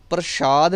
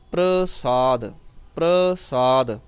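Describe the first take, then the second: First: ਪ੍ਰਸ਼ਾਦ with sh in place of s; wrong sh sound. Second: ਪ੍ਰਸਾਦ slowly, with a clean s; correct s sound. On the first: Teacher showing what not to say, sh sound. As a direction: say ਪ੍ਰਸ਼ਾਦ with a hushing sh. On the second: Teacher showing students the right word, careful s sound. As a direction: stretch ਪ੍ਰਸਾਦ, s rather than sh. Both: Shown as a demonstration. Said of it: "ਪ੍ਰਸ਼ਾਦ ਨਹੀਂ ਕਹਿਣਾ".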